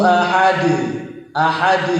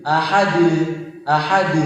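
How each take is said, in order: No difference in how they are said.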